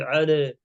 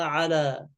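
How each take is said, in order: First: "على" tilted to "'ale"; faulty fronted vowel on "على"; wrong imala. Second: "على" with open "aa", 'alaa; corrected pure a in "على"; no imala. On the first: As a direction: bend the a of "على" toward e. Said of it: "ما في إمالة فيها". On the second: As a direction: keep the vowels of "على" a, untilted. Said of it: "إنما على". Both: Shown as a demonstration.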